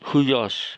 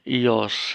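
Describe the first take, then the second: First: The word begins with an h and 'hu' sound. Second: The word begins directly with an ee vowel. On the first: The speaker calls it wrong. "ada yang membaca huyos... sebenarnya transliterasi, bukan cara membaca" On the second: The speaker calls it right. "ini ada kata ios"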